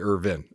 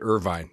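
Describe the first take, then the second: First: It does not sound like the California city. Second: It sounds like the California city Irvine. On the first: This is how the speaker's own family says it. "therefore we say we say Irvin" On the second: This is how the other branch of the family says it. "we would pronounce it Irvine, just like Irvine, California"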